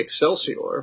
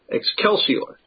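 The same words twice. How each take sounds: First: The c is said softly, like s. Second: The c is said hard, like k. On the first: "If you're doing it, you know, literal, it would be Excelsior" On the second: "classical Roman pronunciation of this would have been with a hard C as a K"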